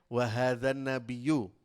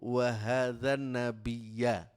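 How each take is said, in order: First: The last word ends with a 'u' vowel. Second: The last word ends with an 'a' vowel. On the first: This is the reading printed in the common text. "Kalau kita baca di sini kan" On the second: This is an alternative recognized reading of the verse. "ada yang membaca ayat ini gini"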